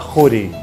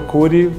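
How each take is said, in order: First: The name begins with a throaty KH sound. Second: The name begins with a plain K sound. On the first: This is how it is said in the family's home country. "lá se fala Cury. Com, com K H" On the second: This is how it came to be said in Brazil. "aqui virou Cury"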